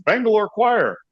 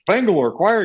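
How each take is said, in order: First: BANGALORE CHOIR as a high statement, falling at the end; firm answer. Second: Surprised echo. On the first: Musician naming band to owner, "Bangalore Choir" falling. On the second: Owner recognizing band name, surprised rising question. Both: Retold or imitated.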